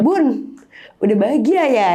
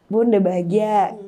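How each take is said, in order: First: A retold quiver on "Bun, udah bahagia ya?", pitched a little up; voice shaking. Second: "Bun, udah bahagia" said slowly and held steady; steadied slow farewell. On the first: Daughter to her dead mother, a mild retold tremble. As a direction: speak to the late mother as the voice starts to tremble. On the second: Retold or imitated. Daughter to her dead mother again, a slower, steadier goodbye. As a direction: pull the voice back together and say it slowly. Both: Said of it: "shaking tiba-tiba".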